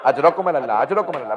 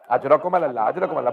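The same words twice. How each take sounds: First: Low, softer broken condolence; mourning, nearly sobbing; quiet grieving repeat; tearful refrain. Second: Low, broken condolence through tears; grief-stricken, voice caving in; low sobbing call of condolence; choked refrain. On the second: Weeping condolence refrain after masaib. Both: Real, not acted.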